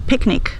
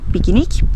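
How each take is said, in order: First: It is said with English pronunciation. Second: It is said with Brazilian Portuguese pronunciation. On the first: "Nós não vamos dizer" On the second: "nós vamos dizer"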